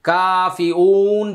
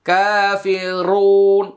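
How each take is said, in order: First: The R sound is lost in the word. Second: The R sound is clearly pronounced. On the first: The speaker calls it wrong. "কাফি উন যেন না হয়" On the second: The speaker calls it right. "এই যে কতগুলো র বলছি এরকম একটা হবে"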